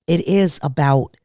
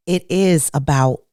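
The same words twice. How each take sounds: The two takes are said the same way.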